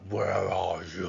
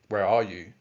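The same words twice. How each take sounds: First: It is said in a demonic voice. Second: It is said in a normal voice.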